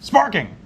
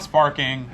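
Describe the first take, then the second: First: The word is said loudly, with excitement. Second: The word is said flatly, without excitement. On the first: The speaker calls it right. "it actually has the exclamation point on it" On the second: The speaker calls it wrong. "It's not sparking"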